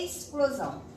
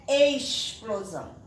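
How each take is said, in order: First: The x is sounded as s. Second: The x is not sounded as s. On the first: The speaker calls it right. "como se no lugar do X tivesse um S" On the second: The speaker calls it wrong. "não é explosão"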